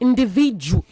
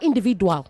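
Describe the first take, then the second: First: The sound before the ending is a j. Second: The sound before the ending is a plain d. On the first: The speaker calls it right. "That D at the end is j, not do" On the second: The speaker calls it wrong. "I meant to say it is not individual"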